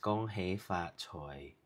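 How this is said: It is said in Cantonese pronunciation. "Cantonese is"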